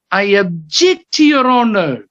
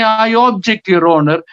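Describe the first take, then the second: First: "object" said as ub-JECT, weak first vowel, rising on JECT; stress on second syllable. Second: "object" said as OB-ject, high on OB; stress on first syllable. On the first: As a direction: punch JECT in "object", as the verb. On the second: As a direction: wrongly stress OB in "object", as if it were the noun. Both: Shown as a demonstration. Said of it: "he doesn't say".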